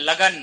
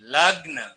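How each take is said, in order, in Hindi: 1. g और n के बीच एक स्वर सुनाई देता है। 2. g और n बिना किसी स्वर के जुड़ जाते हैं। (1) "अगला है लगन नहीं" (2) "लग्न होता है"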